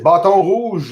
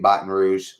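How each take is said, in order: First: It is said with a French pronunciation. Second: It is said with an English pronunciation.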